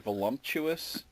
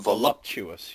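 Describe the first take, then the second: First: The word is said with an added m sound. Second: The word is said without an added m sound. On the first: The speaker calls it wrong. "a lot of people put like an M in there. They say voluptuous" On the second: The speaker calls it right. "You're correct"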